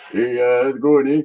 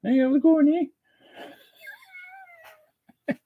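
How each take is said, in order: First: Lowish laid-back Canadian cat voice; relaxed hoser pet greeting; Corbin. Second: Very high falsetto Canadian pet voice; tiny high hoser critter voice; Lucy. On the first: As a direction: play the cat as an easygoing hoser. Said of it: "Corbin wants to say hi too". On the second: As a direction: squeak a greeting as the little pet. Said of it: "Lucy's here to say hi". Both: Pretend.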